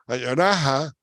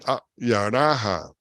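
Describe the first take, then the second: First: It is said at a normal, flowing speed. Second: It is said slowly, with a break after ah.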